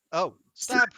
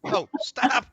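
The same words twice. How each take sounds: First: Loud gleeful cry; excited stab. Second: High loud gleeful cry; excited stab. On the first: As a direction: shout it with glee. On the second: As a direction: shriek it with delight. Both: Pretend. Gleeful mock stabbing sounds.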